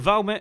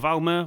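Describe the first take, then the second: First: The name ends with a t sound. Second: The name ends with an r-like sound. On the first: "some people say Valmet" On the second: "Some people say Valmer"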